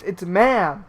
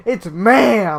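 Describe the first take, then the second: First: Said in the usual way. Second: Louder, drawn-out mock outburst on ma'am; hammed-up indignant MA'AM; mock indignant correction. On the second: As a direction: blare the correction, mimicking outrage. Repeats mocked correction with force.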